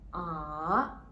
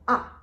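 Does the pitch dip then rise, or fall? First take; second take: dip-rise; fall. First: The pitch dips low, then rises high. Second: The pitch falls from high to low. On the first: "there's a turning point there from the second line to the bottom and then up to the top" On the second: "from the top line to the bottom"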